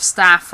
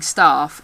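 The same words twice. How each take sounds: First: Staff with a short "a" as in cat; short A in staff, not "ah"; short vowel. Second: Staff with a long "ah" vowel; long southern A in staff. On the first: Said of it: "instead of staff". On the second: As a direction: say staff as "stahff". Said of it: "start using long vowels". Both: Shown as a demonstration.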